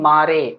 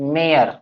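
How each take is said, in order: First: The vowel is 'aa' with an 'e' at the end. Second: The vowel is 'ay' ending in an 'r' sound. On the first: The speaker calls it wrong. "ना कि मारे" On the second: The speaker calls it right. "It's मेयर"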